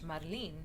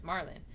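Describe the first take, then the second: First: The name is said with a Spanish pronunciation. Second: The name is said with an English pronunciation. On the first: "pronouncing it in Spanish" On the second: "in English it's Marlin"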